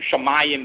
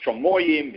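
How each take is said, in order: First: The vowels are e and a sounds. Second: The vowels are o sounds. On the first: The word is in the middle of the verse. "Same thing" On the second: It marks a major break in the verse. "becomes Shomoyim"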